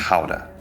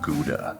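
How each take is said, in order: First: It is pronounced in a Dutch way. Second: It is pronounced in an American way. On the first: The speaker calls it right. "it's Gouda, roughly" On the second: The speaker calls it wrong. "Americans say Gouda. It's not Gouda"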